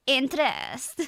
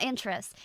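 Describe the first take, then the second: First: "Interest" with a drawn-out final eh; Scottish INTEREST. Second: Said in the usual way. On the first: Shown as a demonstration. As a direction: lean on the last syllable of "Interest". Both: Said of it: "not interest".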